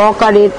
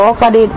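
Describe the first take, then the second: The two takes are said the same way.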